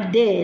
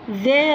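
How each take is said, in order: First: It begins with a hard d sound. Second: It begins with a soft th sound. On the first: "راح تسمع دي" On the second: This is the standard pronunciation. "مو ذي"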